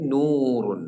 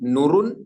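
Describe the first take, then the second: First: The first vowel is lengthened. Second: The first vowel is short. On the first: The speaker calls it right. "നീട്ടിയിട്ട് പറയുന്നത്" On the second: The speaker calls it wrong. "നുറുൻ എന്ന് പറഞ്ഞൊക്കെ"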